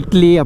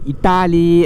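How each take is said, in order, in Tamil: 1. இந்த வார்த்தை இரண்டு குறுகிய அசைகளில் சொல்லப்படுகிறது. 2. இந்த வார்த்தை மூன்று அசையாக இழுத்து சொல்லப்படுகிறது. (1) "அப்படிலாம் சொன்னால் தெரியாது" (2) "இப்படி சொன்னால் தான்"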